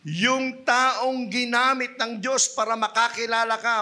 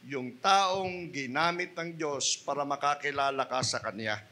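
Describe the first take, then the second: First: Slow, louder stress on "taong"; emphatic. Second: Said in the usual way. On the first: Shown as a demonstration. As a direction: drive home "yung taong ginamit ng Diyos", slowly. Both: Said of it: "Huwag na huwag mong kalilimutan".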